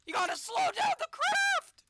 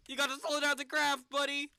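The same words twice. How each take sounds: First: Very high, loud shriek; panicked scream. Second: Loud, pleading; urgent yell. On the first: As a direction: shriek at him to slow. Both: Real, not acted. Panicking as the capsule falls.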